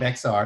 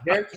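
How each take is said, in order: First: The name is pronounced the way outsiders say it. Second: The name is pronounced the way locals say it. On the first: The speaker is not from the area. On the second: The speaker is from the area.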